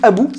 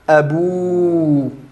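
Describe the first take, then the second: First: The final vowel is short. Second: The final vowel is long. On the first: "au lieu que ce soit juste abou" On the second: "j'allonge la voyelle de déclinaison grammaticale"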